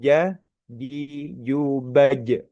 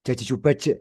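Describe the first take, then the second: First: The j is made with the middle of the tongue. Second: The j is made too far forward, near the teeth. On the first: This is the correct Quranic pronunciation. The speaker calls it right. "Yang betul, yang tepat adalah lidah tengah. Jadi jubaj seperti itu" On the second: It sounds like a Javanese speaker. The speaker calls it wrong. "Kayak ke orang Jawa gitu kan ya. ... makhrajnya terlalu maju"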